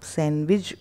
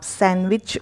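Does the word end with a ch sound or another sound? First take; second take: other; ch. First: The word ends without a ch sound. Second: The word ends with a ch sound. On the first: "अदरवाइज़" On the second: "American इंग्लिश accent use करेंगे"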